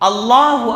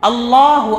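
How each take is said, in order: No difference in how they are said.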